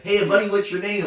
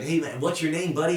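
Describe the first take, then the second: First: High, loud, breezy American "Hey, buddy"; mock American. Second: Mock American. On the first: Imitating the American owner greeting a fan, high and loud. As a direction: ham up a friendly American greeting, pitched high. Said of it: "But he's so American". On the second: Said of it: "he's so American".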